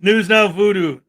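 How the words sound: Voodoo is said smoothly as one word. The speaker calls it right. "because voodoo is one word"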